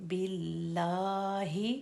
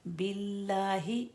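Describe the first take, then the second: First: बिल्लाहि slow with the long ला stretched; correct reading. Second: बिल्लाहि said without the standing fatha stretch; the short wrong बिल्लाहि; wrong reading. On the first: Teacher showing students the correct form: बिल्लाहि stretched. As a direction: draw out ला in बिल्लाहि. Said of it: "अल्लाह का ऊपर खड़ा ज़बर है". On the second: Teacher showing students how not to say it: बिल्लाहि short. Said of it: "बिल्लाहि नहीं पढ़ेंगे". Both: Shown as a demonstration.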